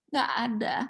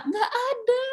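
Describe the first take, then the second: First: Said in the usual way. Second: "nggak ada" pitched high with a stretched, rising "ada"; emphatic nggak ada. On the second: Real, not acted. Preacher stressing to the congregation: "nggak ada" high and stretched. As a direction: lift "ada" way up, like it's unthinkable.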